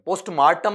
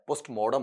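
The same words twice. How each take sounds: First: पोस्टमार्टम, middle vowel as a long "aa"; wrong pronunciation. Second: पोस्टमार्टम, lower, middle vowel as "aw"; correct pronunciation. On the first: Teacher showing students the mistake, पोस्टमार्टम with "maar". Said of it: "पोस्टमार्टम नहीं होता है". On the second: Teacher correcting students, पोस्टमार्टम with rounded "maw". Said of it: "पोस्टमार्टम होता है आपका". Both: Shown as a demonstration.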